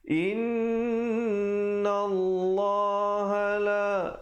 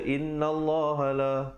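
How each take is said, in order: First: The nasal 'nn' is held for two beats. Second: The nasal 'nn' is cut short. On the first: The speaker calls it right. "lafzul jalalah dua harakat, jangan lupa" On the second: The speaker calls it wrong. "Jangan baca inna Allah la, tak betul"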